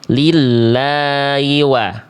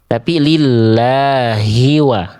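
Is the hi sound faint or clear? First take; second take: faint; clear. First: The hi sound is faint and unclear. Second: The hi sound is clear and audible. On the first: The speaker calls it wrong. "jangan sampai dibaca" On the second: The speaker calls it right. "hi-nya itu harus jelas"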